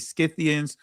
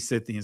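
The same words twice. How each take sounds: First: The word begins with an sk sound. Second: The word begins with a plain s sound. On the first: "some will pronounce it with the sk" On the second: "Some would say"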